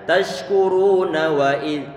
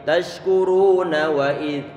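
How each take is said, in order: Both takes have the same delivery.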